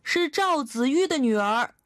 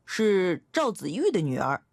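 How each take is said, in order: First: Put-on higher, louder child calling out; raised-voice shout. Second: Put-on clear, mildly raised child's voice; loud child's answer. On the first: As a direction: raise your voice so grandfather hears. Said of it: "我提高嗓门喊道". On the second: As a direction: answer up firmly as a little girl. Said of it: "我大声回答说". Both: A narrator's reading.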